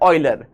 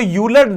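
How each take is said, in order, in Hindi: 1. यह नाम 'oy' ध्वनि से शुरू होता है। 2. यह नाम 'yoo' ध्वनि से शुरू होता है। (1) "पर इसको बोला जाता है ऑयलर" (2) "इसको यूलर देखने में लगता है"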